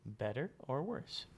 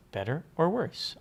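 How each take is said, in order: First: Said in the usual way. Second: Louder, higher "Better or worse?"; louder test take. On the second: Shown as a demonstration. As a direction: belt the test line out. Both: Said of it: "vocal compressor's working".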